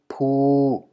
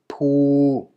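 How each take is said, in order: First: The syllable is said on a level middle tone. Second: The syllable is said on a level middle tone.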